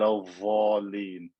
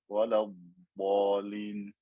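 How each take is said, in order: First: The consonant sounds like th, tongue on teeth. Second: The consonant is a heavy d, tongue behind teeth. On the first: The speaker calls it wrong. "We don't want to say ilv or al valin" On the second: The speaker calls it right. "The tongue should not come anywhere near the edge of the teeth"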